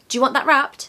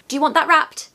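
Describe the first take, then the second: No difference in how they are said.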